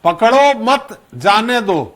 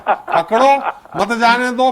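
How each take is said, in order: First: "पकड़ो मत", pause, then "जाने दो"; slow, with the comma heard after "मत". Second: "पकड़ो", pause, then "मत जाने दो" together; pause after पकड़ो. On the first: ("मत" के बाद विराम देकर, धीरे) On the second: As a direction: put the comma right after "पकड़ो". ("पकड़ो" के बाद विराम, फिर "मत जाने दो" साथ में) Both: Shown as a demonstration. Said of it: "कामा का अंतर होता है".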